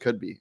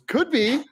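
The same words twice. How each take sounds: First: The words are said in a flat, plain tone. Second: The words are said in an excited, lively tone. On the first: The speaker calls it wrong. "It wasn't could be" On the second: The speaker calls it right. "It was could be. ... So excited"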